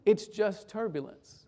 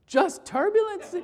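First: Slow, soft and even; calm reassurance. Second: Pitched up in disbelief with a laugh; can't believe he's so calm; incredulous teen. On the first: Pastor soothing the frightened boy beside him, calm and slow. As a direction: settle him down gently. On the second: Frightened teen doubting the calm stranger, incredulous. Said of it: "He looked at me like I was crazy". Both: Retold or imitated.

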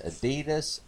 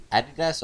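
First: "Adidas" with the stress on the middle, "a-DEE-das"; second-syllable stress. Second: "Adidas" with the stress up front, "AD-i-das"; first-syllable stress. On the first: Host weighing how to say the brand, "Adidas" as a-DEE-das. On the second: Host offering the other way to say the brand, "Adidas" as AD-i-das. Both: Shown as a demonstration. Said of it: "Adidas or Adidas".

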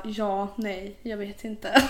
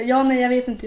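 First: Halting, mock-unsure reply; understated, dithering imitation; hesitant boyfriend. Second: Louder, higher mock-clueless reply; livelier, exaggerated mimicking of indecision; amused boyfriend imitation. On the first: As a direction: imitate an indecisive partner, weighing each word. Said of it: "så han brukar bara". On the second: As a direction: parrot the clueless answer with amusement. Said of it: "brukar vara hoppas på det bästa".

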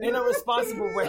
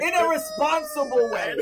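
First: Responsible said firmly, leaning on it; stress on responsible. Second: In a responsible way said mid-laugh and breaking; words squeezed out through laughter; cracking up while trying to say it. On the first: Shown as a demonstration. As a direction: settle down and lean on responsible. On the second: Real, not acted.

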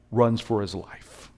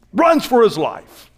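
First: Said in the usual way. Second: Much higher, louder and slow; shouted from the pulpit; preached shout. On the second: Shown as a demonstration. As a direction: hammer it home to the crowd.

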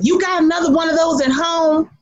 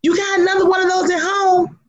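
First: Grandma's taunt. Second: High, sassy repeat, leaning on home; grandma's taunt again. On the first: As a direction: call it out across the car at the biker. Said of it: "she leans over to me and says". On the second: Grandma repeating her taunt to the biker: high sassy teasing. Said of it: "grandma repeats the taunt". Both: Retold or imitated.

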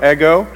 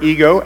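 First: Greek "ego", said EH-go; "ego" as EH-go, not English EE-go; Greek pronunciation. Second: Said in the usual way. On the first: Shown as a demonstration. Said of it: "It's sort of similar". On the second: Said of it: "We get our word ego".

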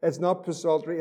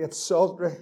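First: "psaltery" with the p sounded, p-saltery; quiet mock-wrong "psaltery", hard p then saltery; wrong pronunciation. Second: "psaltery" with a silent p, said saltery; quiet correction: "psaltery" as sawl-ter-ee, no p; correct pronunciation. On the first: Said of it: "Nicky's laughing ... you called it psaltery". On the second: Shown as a demonstration. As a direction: drop the p in "psaltery", start on the s.

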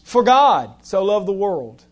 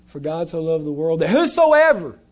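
First: "God" leaned on, the rest lighter; stress on God. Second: "whosoever" punched, "God" passed over; stress on whosoever. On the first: Preacher showing his reading to the congregation, stress on "God". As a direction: hit the word "God" and let the line fall. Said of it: "I put emphasis on God". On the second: Preacher mimicking the usual reading, stress on "whosoever". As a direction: give the weight to "whosoever" as most readers do. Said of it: "How do we usually read it?". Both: Shown as a demonstration.

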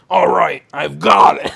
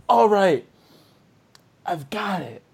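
First: Louder, rasped hero line; gruff hero redo. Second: Said in the usual way. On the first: Shown as a demonstration. Retaking Indiana Jones's line louder and rasping. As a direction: bark it out like a rugged hero. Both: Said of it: "oh wait, sorry".

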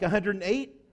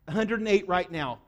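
First: "a hundred and eight" with a rise on "eight"; unsure query, "eight" tipped upward; questioning. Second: "A hundred and eight right now" with a falling end; firm confirmation, "right now" falling; confirming. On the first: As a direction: ask "a hundred and eight?" as a check, lifting the end. Checking a figure, asking. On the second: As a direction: state "A hundred and eight" as settled fact, dropping on "now". Confirming the same figure. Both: Real, not acted.

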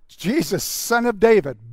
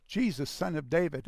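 First: Loud, higher-pitched cry over a crowd; urgent shouted plea for attention; shouting. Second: Said in the usual way. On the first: Acted. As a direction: call out at full voice to be heard. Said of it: "But he shouted". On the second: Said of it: "started to shout in a loud voice".

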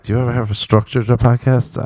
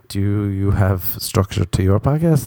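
First: Said in the usual way. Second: The question turned back with weight on "you"; stress on YOU. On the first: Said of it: "they're like". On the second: Retold or imitated. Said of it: "I'm like".

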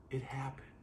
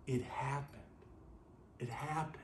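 First: Breathy whispered awe. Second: Said in the usual way. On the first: Shown as a demonstration. Preacher whispers the wonder to the congregation, hushed. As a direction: let it drop to a whisper. Repeated line, now hushed.

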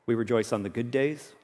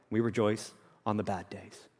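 First: "good days" said softly with a lifted, rising end; soft and low, lifting "good days" as the first half; contrast on GOOD. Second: "bad days" dropped very soft and low; contrast on BAD. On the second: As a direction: sink the voice right down on "bad days". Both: Real, not acted. Two kinds of days contrasted.

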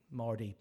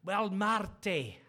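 First: Said in the usual way. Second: Loud, drawn-out Scottish greeting; Scottish accent. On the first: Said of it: "That's Marty, by the way". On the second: Retold or imitated. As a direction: put on a hearty Scottish accent. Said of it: "that's my Scottish".

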